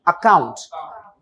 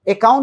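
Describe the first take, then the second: First: The word begins with an 'ah' vowel sound. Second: The word begins with an 'eh' vowel sound. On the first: The speaker calls it right. "वो आ होता है" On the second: The speaker calls it wrong. "अकाउंट नहीं, ना कि ए होता है"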